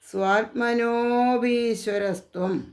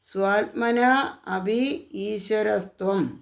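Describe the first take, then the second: First: The words are joined into one sounding unit. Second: The words are said separately, without joining.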